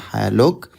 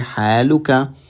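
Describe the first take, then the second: First: The word ends on a bare consonant. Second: The word ends with a final vowel sound. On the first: The speaker stops after this word. "If you say this sentence and pause after it" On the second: More words follow without a break. "intending to join it to the next sentence"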